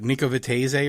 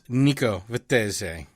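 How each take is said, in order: First: The name is said with an American accent. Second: The name is said with exaggerated Italian pronunciation. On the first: The speaker calls it wrong. "Some terrible was, American accent" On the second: The speaker calls it right. "I like just like to overemphasize the Italian thing"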